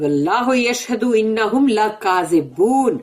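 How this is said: It is said with intense anger and heat.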